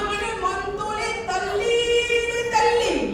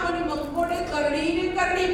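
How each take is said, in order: First: The k and d sounds become t and l. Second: The consonants are pronounced clearly and normally.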